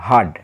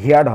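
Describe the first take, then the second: First: The vowel sounds like 'er' in 'her'. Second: The vowel sounds like 'ear' in 'here'. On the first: The speaker calls it right. "সঠিক উচ্চারণ হচ্ছে হার্ড" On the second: The speaker calls it wrong. "এটার উচ্চারণ হিয়ার্ড হবে না"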